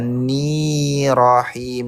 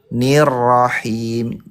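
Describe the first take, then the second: First: The vowel after the first n is long. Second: The vowel after the first n is short. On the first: The speaker calls it wrong. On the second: The speaker calls it right.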